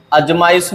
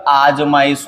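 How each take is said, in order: First: अजमाइश as 'aj-maa-is'; wrong short start. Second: आजमाइश as 'aaj-maa-is'; correct long start. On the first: Teacher rejects a common error, अजमाइश with short first a. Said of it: "नहीं होता". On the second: Teacher gives the correction, आजमाइश with long first aa. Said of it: "होता है". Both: Shown as a demonstration.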